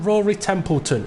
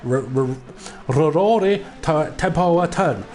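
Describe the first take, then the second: First: The name is said in a plain English accent. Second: The name is said in a Japanese accent.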